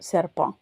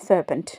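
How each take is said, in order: First: The word ends without a t sound. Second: The word ends with a clear t sound. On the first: This is the French pronunciation. "அந்த கடைசியில் இருக்கிற டீயை வந்து உச்சரிக்க மாட்டோம்" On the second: This is the English pronunciation. "இங்கிலீஷில்"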